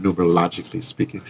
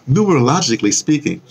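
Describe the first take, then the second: First: Said in the usual way. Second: Relishing the word. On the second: Real, not acted. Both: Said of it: "I always love to say that word".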